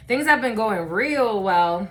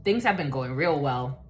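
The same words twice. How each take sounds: First: "real" drawn out slowly for emphasis; slow down and lean on "real"; emphatic repeat. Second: Said in the usual way. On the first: Real, not acted.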